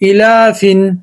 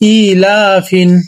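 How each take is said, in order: First: The first vowel is short. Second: The first vowel is drawn out long. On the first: The speaker calls it wrong. "না sorry" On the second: The speaker calls it right. "হামজাটা টান হবে"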